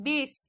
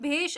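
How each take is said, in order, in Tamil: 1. இந்த வார்த்தை சாதாரண 's' ஒலியில முடியுது. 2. இந்த வார்த்தை 'sh' ஒலியில முடியுது. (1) "பேச்சு வழக்குல நிறைய இடத்துல பேஸ் இஸ்ன்னு சொல்லுவாங்க" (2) "கரெக்டான இது வந்து பாத்தீங்கன்னாக்கா பேஷ் அப்படின்றதுதான் சொல்லுவோம்"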